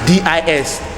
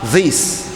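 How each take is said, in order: First: The word begins with a d sound. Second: The word begins with a th sound. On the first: The speaker calls it wrong. "This is dis. That is what I'm hearing" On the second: The speaker calls it right. "It's that, this"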